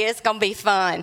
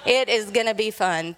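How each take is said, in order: First: Ominous teasing. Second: "It is gonna be fun" with is hit hard; stress on IS. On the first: Retold or imitated. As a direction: tease that trouble's coming. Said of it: "I'm like". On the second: Shown as a demonstration. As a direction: lean on "is" to insist.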